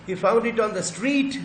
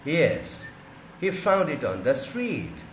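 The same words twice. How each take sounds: First: "street" climbs high and loud at the end; slow, louder model question, lift "street"; rising question tune. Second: "Yes" falls, then "street" drops at the end; slow model answer, let "street" come down; falling answer tune. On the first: Teacher shows students how tone makes a question, rising on "street". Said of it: "tone को rise कर दिया". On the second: Teacher shows the answer to the question, falling tone on "street". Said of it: "मतलब fall हो गया". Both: Shown as a demonstration.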